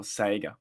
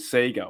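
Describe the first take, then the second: First: Sega said as "SAY-ga"; second of two pronunciations. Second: Sega said as "SEE-ga"; first of two pronunciations. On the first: Retold or imitated. Host naming the listeners' version in passing, Sega as SAY-ga. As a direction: say Sega with an AY vowel. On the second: Shown as a demonstration. Host naming both versions in passing, Sega as SEE-ga. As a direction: say Sega with a long EE. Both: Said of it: "nothing to do with Sega or Sega".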